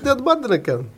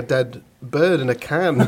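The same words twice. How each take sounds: First: High mock Polish accent. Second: Said in the usual way. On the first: Builder repeating himself to a baffled client, in a mock Polish accent. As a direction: imitate a Polish builder's thick accent, pitched up. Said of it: "to do the accent". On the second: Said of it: "it sounds like you're saying".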